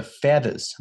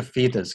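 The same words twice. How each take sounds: First: Feathers with "eh" in the first syllable; correct short E. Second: Feathers misread as "feethers"; mistaken EE vowel. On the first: Teacher models the right vowel, feathers with short E. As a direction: say feathers as FETH-ers. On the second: Teacher shows the misreading, feathers as "feethers". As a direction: stretch the first vowel of feathers to "ee". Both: Shown as a demonstration. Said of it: "不是feathers".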